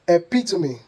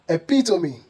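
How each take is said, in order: First: The word has four syllables. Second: The word has four syllables.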